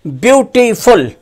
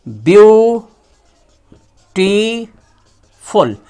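First: Said in the usual way. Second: beautiful drawn out very slowly, each syllable apart. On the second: Shown as a demonstration. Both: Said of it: "इसका तीन खंड होगा".

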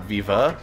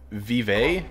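First: "Viva" said vee-vuh, English style. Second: "Vive" said the French way, ending on an ay sound. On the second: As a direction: say "Vive" as vee-vay. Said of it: "not Viva". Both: Shown as a demonstration.

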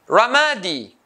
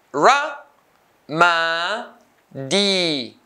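First: Said in the usual way. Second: "ramadi" as ra, ma, di with pauses; syllable by syllable. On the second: Shown as a demonstration. Teacher cutting the word into three, syllable by syllable. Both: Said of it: "three syllables".

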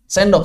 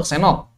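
First: Said in the usual way. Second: "senok" with n replacing nd; D dropped with nasal. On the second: Shown as a demonstration. Teacher contrasting sendok with Sundanese speech, "senok" without d. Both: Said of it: "Menghilangkan dal dengan gunnah".

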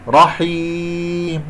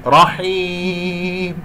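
First: رحيم slowly stretched, no ghunna on ya; stop with madd. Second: رحيم slowly stretched on the ya; stop with madd. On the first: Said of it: "أقول رحي". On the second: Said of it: "خطأ". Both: Shown as a demonstration. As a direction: hold the ya of رحيم long.

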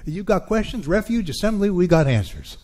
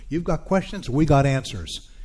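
First: Brand the church slogan with a louder, higher push; adapted slogan, louder. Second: Light mock commercial read of the slogan; lightly voiced Radio Shack jingle line; quoting an ad slogan. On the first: Acted. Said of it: "I'm gonna adapt that". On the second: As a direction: give it a hint of an old TV ad. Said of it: "Radio Shack used to have this commercial".

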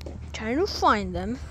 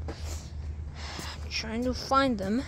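First: Said in the usual way. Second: "I'm trying to find them" stretched very slowly, word by word; drawn-out. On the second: Shown as a demonstration. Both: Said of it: "repeated slowly as a demo".

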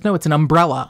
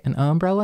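First: "umbrella" as um-BRELL-a; standard pronunciation. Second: "umbrella" as UM-brella, questioning; front-stress "umbrella" as a question; dialect pronunciation. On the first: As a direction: correct them, stressing the second syllable of "umbrella". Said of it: "And she goes". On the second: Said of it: "And I'm like". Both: Retold or imitated.

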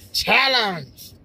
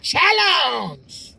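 First: Said in the usual way. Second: Movie guy's "challenge". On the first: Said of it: "Did he say, even say it like that?". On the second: Retold or imitated. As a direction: belt "challenge" like a movie trailer voice. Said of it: "The guy was like".

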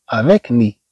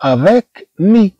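First: Said in the usual way. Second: Avec mi drawn out very slowly, higher; slow, careful teacher pronunciation; slow teaching demo. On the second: Shown as a demonstration. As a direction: spell the sounds out slowly for the class. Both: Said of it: "هنا عندنا كلمات".

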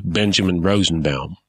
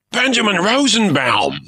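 First: Said in the usual way. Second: Much higher, starstruck cry; pirate recognizes a famous poet, thrilled cry; cried out. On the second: Acted. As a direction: gasp the name like meeting a legend. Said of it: "the pirate cried".

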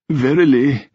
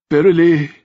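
First: Put-on tearful old king. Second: Put-on high, trembling old king, near tears; tearful old king. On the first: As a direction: let the second one sink into a sniff. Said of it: "he gave a deep sniff". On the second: Old king moved to tears by praise of his son. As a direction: choke the word out as he fights tears. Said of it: "Edward's lips trembled". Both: A narrator's reading.

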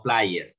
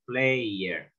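First: "player" misread as PLY-er; wrong vowel. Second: "player" as PLEY-er; correct vowel. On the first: Teacher shows students what to avoid, "player" mispronounced plai-er. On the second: Teacher models it for students, "player" pronounced with the ay sound. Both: Shown as a demonstration. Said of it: "no player".

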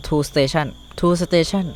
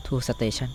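First: "tool station" stretched very slowly, word by word; drawn-out reading. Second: Said in the usual way. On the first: Shown as a demonstration. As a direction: read the name off the screen syllable by syllable. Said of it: "slowly reading item name". (อ่านช้าๆ ลากเสียง "tool station") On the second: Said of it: "repeats item name normally".

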